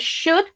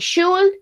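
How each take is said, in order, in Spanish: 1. La L es silenciosa en la palabra "should". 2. Se pronuncia la L en la palabra "should". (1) "decimos should" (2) "aquí no pronunciamos la L, no decimos ni should"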